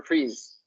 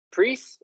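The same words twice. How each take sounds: First: Pris ending in a buzzed z. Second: Pris ending in a crisp hissed s; hard S ending. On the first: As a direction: say pris with a voiced z at the end. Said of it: "Pris or pris?". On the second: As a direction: say Pris with a voiceless s at the end. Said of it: "Is it a hard S or a". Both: Shown as a demonstration.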